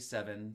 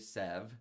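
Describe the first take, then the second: First: The word is said with two full syllables. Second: The word is cut to one short syllable. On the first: The speaker calls it wrong. "I don't say seven, two syllables" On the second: The speaker calls it right. "Instead, I say sev"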